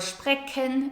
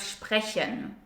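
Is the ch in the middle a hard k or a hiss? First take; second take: hard k; hiss. First: The ch is said as a hard k. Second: The ch is said as a soft hiss. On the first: The speaker calls it wrong. "pronounce it as a K sound" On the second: The speaker calls it right. "instead of a ch sound"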